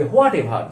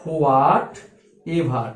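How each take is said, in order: First: what ever run together, low; joined as one. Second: what and ever split by a pause, low; two separate parts. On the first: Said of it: "একসাথে লিখবে". (What ever না থেমে একসাথে বলা) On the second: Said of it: "what ever একসাথে লিখবে". (What আর ever থেমে আলাদা করে বলা) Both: Shown as a demonstration.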